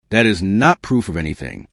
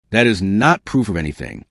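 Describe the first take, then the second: No difference in how they are said.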